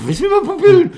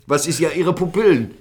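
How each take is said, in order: First: Very high, loud, incredulous question; retold panic, voice leaping way up; mock startled comeback. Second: Slightly raised mock-official question; retold police query, pitched up a little; questioning police officer. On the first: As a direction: squeal it back in exaggerated disbelief. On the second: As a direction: lightly imitate an officer querying a suspect. Retold officer questions his pupils.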